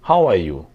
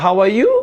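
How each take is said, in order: First: The pitch falls at the end. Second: The pitch rises at the end.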